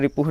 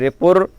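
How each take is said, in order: First: The word ends with a breathy h sound. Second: The word ends with an r sound. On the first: The speaker calls it wrong. "रिपुह नहीं बोलना" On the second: The speaker calls it right. "रिपुर बोलेंगे"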